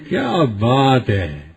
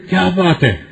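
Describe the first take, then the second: First: Soft, slow, sung-out "کیا بات ہے" in delighted wonder; happy amazement. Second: "کیا بات ہے" quick and cutting, falling hard at the end; a clipped, sneering "کیا بات ہے" that picks a fight; mild sarcastic anger. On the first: Preacher praises someone with happy wonder, soft and slow. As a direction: draw out "کیا" softly, as if praising. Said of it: "خوش ہو کے کہتے ہیں". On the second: Preacher says the same words angrily to start a quarrel, mild mock anger. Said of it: "غصے کی نظر سے دیکھ کہتے ہیں". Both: Shown as a demonstration.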